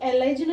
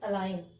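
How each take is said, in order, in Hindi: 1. इस शब्द में g का उच्चारण होता है। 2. इस शब्द में g साइलेंट रहता है। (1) "इसको एलाइजन नहीं पढ़ेंगे" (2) "जो एन से पहले जो जी आ रहा है वो साइलेंट है"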